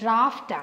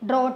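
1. ഈ വാക്ക് -aft ശബ്ദത്തിലാണ് അവസാനിക്കുന്നത്. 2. ഈ വാക്ക് -ot ശബ്ദത്തിലാണ് അവസാനിക്കുന്നത്. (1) "കറക്റ്റായിട്ട് പ്രൊനൗൺസ് ചെയ്യുന്നത് ഡ്രാഫ്റ്റ് ആണ്" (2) "ഒറ്റ നോട്ടത്തിൽ നമ്മൾ എന്ത് വായിക്കും, ഡ്രോട്ട് എന്ന് വായിക്കും"

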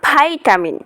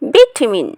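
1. এটা আমেরিকান উচ্চারণে বলা হয়। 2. এটা ব্রিটিশ উচ্চারণে বলা হয়। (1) "সো আমেরিকান ল্যাঙ্গুয়েজে কী হবে?" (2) "কারেক্ট প্রনাউন্সিয়েশন ইজ ভিটামিন"

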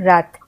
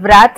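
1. शब्द सीधे "r" ध्वनि से शुरू होता है। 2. "r" से पहले "w" ध्वनि सुनाई देती है। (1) "हम आर से शुरू करते हैं प्रोनाउंसिएशन" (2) "हम इसमें व्रैथ नहीं बोलते हैं"

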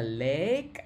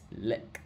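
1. Nguyên âm được kéo dài. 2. Nguyên âm được đọc rất ngắn. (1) "không phải là lick" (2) "Âm e nó ngắn lắm cả nhà nha"

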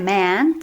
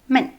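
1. Голосний протягнутий, довгий. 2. Голосний короткий і уривчастий. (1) "Це не мен" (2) "це коротеньке"

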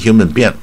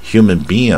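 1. 'being' 的两个元音都读短音。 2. 长元音后面接短元音。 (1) "你用短音human being 也不对" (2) "它是先长音再短音"

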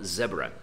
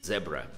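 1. A primeira sílaba tem uma vogal 'eh' curta. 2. A primeira sílaba tem uma vogal 'eh' curta.

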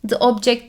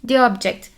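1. 'the' kelimesinin sesli harfi kısa 'uh' sesidir. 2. 'the' kelimesinin sesli harfi uzun 'ee' sesidir. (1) "The object değil" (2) "D diye okumuyorum"

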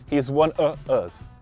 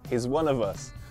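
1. O som do v de 'of' é omitido. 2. O som do v de 'of' é pronunciado. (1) "eu não posso simplesmente dizer" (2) "Não"

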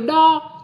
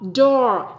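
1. Nghe giống một âm tiết tiếng Việt ngắn. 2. Có nguyên âm dài và âm r cong lưỡi. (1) "Khác với do" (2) "nghe hay hơn đo"

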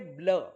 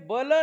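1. b आणि l स्वराशिवाय एकत्र मिसळतात. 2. b आणि l मध्ये एक स्वराचा आवाज येतो. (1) "तर BL म्हणजे ब्ल" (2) "BL म्हणजे बल नाही"

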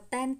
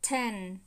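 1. Âm t được phát không có luồng hơi bật ra. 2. Âm t được phát với một luồng hơi mạnh bật ra. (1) "họ không có đọc là ten, ten" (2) "mà họ đọc là ten"

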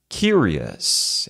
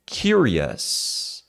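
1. O final é um som 'uhs' curto e reduzido. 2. O final é um som 'uhs' curto e reduzido.

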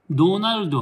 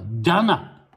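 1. 四つの音節で、do-na-ru-do と言います。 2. dana のように聞こえます。l も d もありません。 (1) "ドじゃない" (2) "エルディーは聞こえない"

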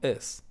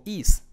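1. La vocal es un sonido relajado, cerca de e. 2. La vocal es un sonido ee tenso. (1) "sino es" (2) "fíjate que no digo is"

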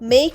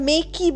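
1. শব্দটি k ধ্বনি দিয়ে শেষ হয়, কোনো স্বরধ্বনি নেই। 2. শেষের e একটি অতিরিক্ত স্বরধ্বনি হিসেবে উচ্চারিত হয়। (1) "মেক বলছি" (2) "মেকে আমরা মেকি বলছি না"

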